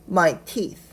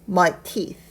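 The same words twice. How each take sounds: No difference in how they are said.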